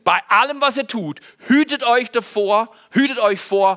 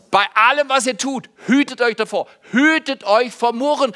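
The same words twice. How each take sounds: First: Said in the usual way. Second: Louder, chanted together with the church; recited aloud with the congregation. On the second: Shown as a demonstration. Pastor has the congregation repeat the verse, loud and together. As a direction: lead the room in saying the verse out loud. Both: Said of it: "können wir es miteinander sagen?".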